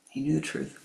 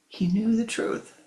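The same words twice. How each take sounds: First: Said in the usual way. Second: "knew" lifted high and stressed; emphatic. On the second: Shown as a demonstration. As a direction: lift "knew" up, with the words "the truth" said firmly.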